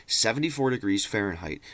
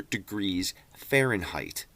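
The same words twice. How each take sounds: First: Seventy-four falado com ênfase incrédula e queda no fim; stress on seventy-four. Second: Said in the usual way. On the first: Shown as a demonstration. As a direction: bater forte em Seventy-four, tom de descrença. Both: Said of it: "All right, just remember that".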